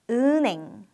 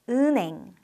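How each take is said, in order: First: The sounds run together across the syllables. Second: The sounds run together across the syllables.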